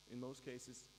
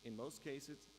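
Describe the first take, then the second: No difference in how they are said.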